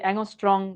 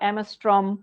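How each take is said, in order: First: It is said with 'ng' and ends in 'ng'. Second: It is said with 'm' and ends in 'm'. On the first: "খুবই অদ্ভুত শোনায়" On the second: "তোরা অ্যামস্ট্রম"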